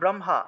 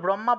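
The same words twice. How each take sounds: First: An h is sounded just before the m. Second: The h is not sounded before the m. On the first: The speaker calls it right. "হ যোগ ম উচ্চারিত হয়, উচ্চারণ হবে ব্রহ্মা" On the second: The speaker calls it wrong. "আমরা তো ব্রহ্মা বলে ফেলি, ব্রহ্মা হবে না"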